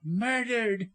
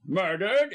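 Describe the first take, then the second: First: High, distraught cry; woman's horrified high exclamation; voice leaping up. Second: Loud, startled echo with rising end; raised-voice question of shock; shocked exclamation. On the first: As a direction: jump up in pitch on the dreadful word. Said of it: "her voice leaped into alto". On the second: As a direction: exclaim it in astonished disbelief. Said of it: "exclaimed both men". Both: A narrator's reading.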